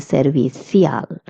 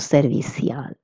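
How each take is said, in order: First: The 'ci' is pronounced with a 'th' sound. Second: The 'ci' is pronounced with an 's' sound. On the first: This is how it is said in Spain. "if you're in Spain, you would say servicial with a little stronger th sound" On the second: This is how it is said in Latin America. "if you're in Latin America, you will pronounce ci as s"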